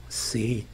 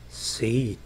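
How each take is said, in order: The two takes are said the same way.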